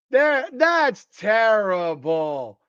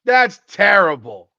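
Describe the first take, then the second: First: "terrible" stretched very slowly; drawn-out disbelief. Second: Said in the usual way. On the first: Real, not acted. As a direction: drag out "That's terrible" in disbelief.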